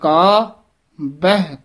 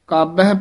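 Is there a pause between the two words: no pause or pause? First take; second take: pause; no pause. First: A short pause separates the two words. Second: The two words run together without a pause. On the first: The speaker calls it right. "ਮੰਨੇ ਕਾ ਇੱਥੇ ਵਿਸਰਾਮ ਲਾਉਣਾ ਧਿਆਨ ਦੇ ਨਾਲ" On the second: The speaker calls it wrong. "ਕਾਬਹਿ ਪਾਠ ਨਹੀਂ ਕਰਨਾ"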